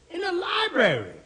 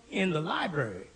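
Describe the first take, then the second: First: LIBRARY pitched very high, then dropping; incredulous repeat. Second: Said in the usual way. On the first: Acted. Repeats it in disbelief.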